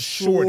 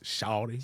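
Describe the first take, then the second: First: It has a New York accent, R sounded. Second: It has an Atlanta accent, R dropped.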